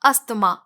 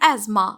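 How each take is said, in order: First: The middle is pronounced with an 'sth' sound. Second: The middle is pronounced with a 'z' sound. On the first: The speaker calls it wrong. "बहुत से लोगों को बोलते हुए सुना होगा" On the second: The speaker calls it right. "Correct pronunciation है एज़मा"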